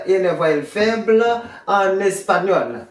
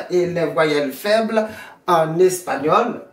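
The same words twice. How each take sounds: The two takes are said the same way.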